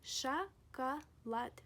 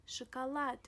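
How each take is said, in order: First: "шоколад" slowly split as sha, ka, lad; slow spelled-out "шоколад", a pause after each syllable. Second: Said in the usual way. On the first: Shown as a demonstration. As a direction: break "шоколад" into three syllables, both O's as clear A. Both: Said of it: "We pronounce them as A".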